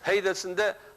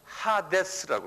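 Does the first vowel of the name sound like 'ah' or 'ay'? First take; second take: ay; ah. First: The first vowel is pronounced 'ay'. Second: The first vowel is pronounced 'ah'. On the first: This is how English speakers say it. "이걸 영어로는 헤이더스 그래요" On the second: This is how the original language says it. "원어가 그렇게 하데스라고"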